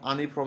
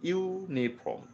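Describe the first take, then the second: First: The word begins with a plain 'uh' vowel. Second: The word begins with a 'you' sound. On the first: The speaker calls it wrong. "আনি ফ্রম আমরা বলি না।" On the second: The speaker calls it right. "কিন্তু উচ্চারণ করবো আমরা ইউনিফর্ম।"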